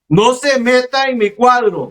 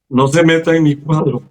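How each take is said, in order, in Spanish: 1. Se dice muy fuerte y con mucha fuerza. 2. Se dice más fuerte, con algo de fuerza. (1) "él habló más fuerte" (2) "Tienes que hablar más fuerte"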